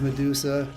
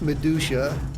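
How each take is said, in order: First: The middle syllable is said with a plain 's'. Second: The middle syllable is said like 'douche'.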